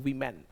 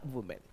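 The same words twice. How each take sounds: First: वीमेन with a long ee, wee-men; women spoken as wee-men; women as weemen. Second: वुमेन with a full u, woo-men; women spoken as woo-men; women as wumen. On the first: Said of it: "इसका pronunciation वीमेन भी बोलते हैं". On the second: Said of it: "क्या बनेगा?". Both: Shown as a demonstration.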